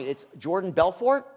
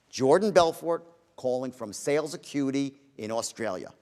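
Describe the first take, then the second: First: The voice rises at the end, like a question. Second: The voice stays flat with no rises.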